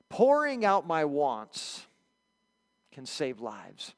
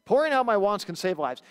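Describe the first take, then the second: First: Slow and weighty, each word placed; slow solemn statement. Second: Said in the usual way. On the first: Shown as a demonstration. Pastor slowly announcing the first lesson to the church. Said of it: "Here's the first lesson".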